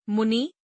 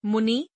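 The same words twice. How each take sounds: First: Said in the usual way. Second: मुनि ending on long ee, "munee"; mispronounced. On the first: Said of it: "शुद्ध". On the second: Shown as a demonstration. Teacher showing an i error, mispronounced with long final ee. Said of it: "अशुद्ध".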